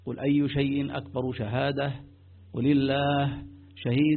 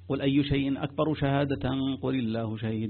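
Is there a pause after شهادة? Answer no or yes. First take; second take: yes; no. First: There is a clear pause after شهادة. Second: It runs on without a pause after شهادة. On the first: The speaker calls it right. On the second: The speaker calls it wrong.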